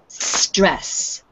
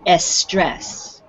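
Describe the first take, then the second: First: The word begins directly with the s. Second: A vowel sound comes before the s. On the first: The speaker calls it right. "You have to start with s" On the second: The speaker calls it wrong. "they put an E at the beginning and say estrés, which is not right"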